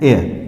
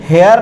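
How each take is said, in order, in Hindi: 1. शब्द सीधे एक स्वर ध्वनि से शुरू होता है। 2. शब्द की शुरुआत एक उच्चारित h ध्वनि से होती है। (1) "इसे हम पढ़ते हैं एयर" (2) "हम इसे हेयर नहीं पढ़ते हैं"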